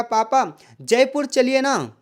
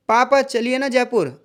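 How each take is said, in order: First: जयपुर leaned on, slow and weighted; slow plea with weight on जयपुर; stress on Jaipur. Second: Slow, coaxing plea to dad; a child's gentle pleading request. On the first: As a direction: hit the word जयपुर. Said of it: "उसने जयपुर पर जोर दिया". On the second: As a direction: ask nicely, drawing it out. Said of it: "अनुरोध किया जा रहा है". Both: Shown as a demonstration.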